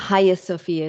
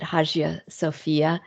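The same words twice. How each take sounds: First: The G in Hagia is silent. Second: The G in Hagia is sounded. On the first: The speaker calls it right. "what I think is more accurate" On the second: The speaker calls it wrong. "I've always pronounced it"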